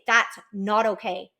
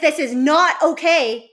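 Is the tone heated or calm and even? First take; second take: calm; heated. First: It sounds calm and even, with the voice going down. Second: It sounds heated, with the voice going up.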